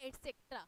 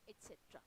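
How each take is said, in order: First: "et cetera" said et-SEK-tra; common mispronunciation. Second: "et cetera" said et-SET-ra, no k; correct pronunciation. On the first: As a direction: mimic the common slip, "et cetera" with a k. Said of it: "कई, कई लोग हैं ना". ("et cetera" का गलत उच्चारण, एट-सेक्ट्रा) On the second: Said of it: "but it is et cetera". ("et cetera" का सही उच्चारण, एट-सेट्रा) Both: Shown as a demonstration.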